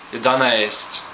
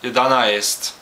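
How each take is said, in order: First: The two vowels near the end blend into one. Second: The two vowels near the end are said separately. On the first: The speaker calls it right. "just say it like a variant of e" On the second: The speaker calls it wrong. "you can pronounce it clearly, clearly then it is just jedanaest"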